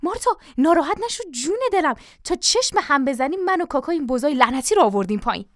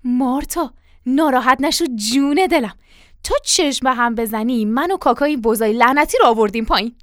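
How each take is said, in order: First: Higher-pitched, wheedling reassurance; butter up the wife in a hurry; coaxing, ingratiating appeasement; hurried flattery. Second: Louder wheedling reassurance; butter up the wife, voice firmly projected; coaxing, ingratiating appeasement at usual pitch; flattering. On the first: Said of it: "با لحنی چاپلوسانه به عجله گفت". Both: Acted.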